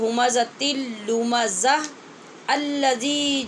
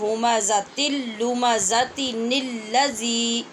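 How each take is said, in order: First: The words are separate, with the hamza pronounced. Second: The words are joined by a linking 'ni' sound.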